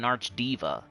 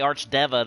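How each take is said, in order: First: The second part sounds like the word 'diva'. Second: The second part does not sound like 'diva'. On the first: "I just think Diva sounds like a woman" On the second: "I just think it's cooler to say Archdeva"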